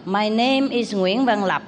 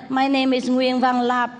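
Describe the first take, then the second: First: "Nguyễn Văn Lập" said slowly with full Vietnamese tones; proper Vietnamese name. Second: "Nguyễn Văn Lập" flattened, tones dropped, higher pitch; mock the Americanized "Nguyễn Văn Lập" with no tones; Americanized name. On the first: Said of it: "thì nói". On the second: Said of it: "Không có nói". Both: Shown as a demonstration.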